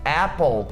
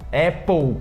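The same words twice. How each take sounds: First: The word ends with a clear tongue-tip L. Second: The word ends with a U-like vowel sound. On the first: The speaker calls it right. "com o L encostando a língua lá na frente" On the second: The speaker calls it wrong. "com som de U"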